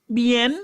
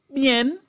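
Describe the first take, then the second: No difference in how they are said.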